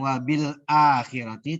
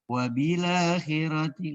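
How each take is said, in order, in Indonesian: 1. Hamzah tetap dibaca sebelum akhirati. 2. Hamzah dihilangkan, harakatnya dipindah ke huruf l. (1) "Bukan wabil akhirati" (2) "dengan menghapus atau membuang huruf huruf hamzah"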